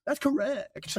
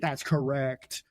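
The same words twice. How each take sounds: First: High-pitched, playful echo; silly high voice. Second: Slow, drawn-out quizmaster confirmation. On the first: Host repeating the score confirmation, silly high voice. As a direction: repeat it in a squeaky put-on voice. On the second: Host confirming the match score, slow and drawn out. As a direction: stretch it out at your usual pitch. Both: Pretend.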